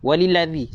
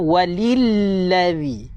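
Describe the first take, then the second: First: The L sound is short and single. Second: The L sound is held and doubled. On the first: The speaker calls it wrong. "Baca tanpa sabdu seakan-akan kita telah membuang satu huruf" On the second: The speaker calls it right. "Kena walilladzi"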